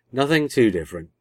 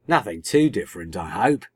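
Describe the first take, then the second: First: Higher, louder reassurance; assuring. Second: A quick worried interjection, lightly acted; butting in. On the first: Doctor answers the girls' worry about clothes, assuring. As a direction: assure them firmly, pitched up. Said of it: "the Doctor assured them". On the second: Tegan interrupts the Doctor about clothes, butting in. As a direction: cut in with mild wariness. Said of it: "Tegan butted in". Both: A narrator's reading.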